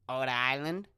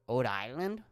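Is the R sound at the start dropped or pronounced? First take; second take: dropped; dropped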